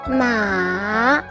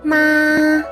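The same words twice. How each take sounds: First: The pitch starts low, dips, then rises. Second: The pitch stays high and level. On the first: "your pitch starts lower, then falls in pitch and then rises again" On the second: "The first tone is high and at the same level"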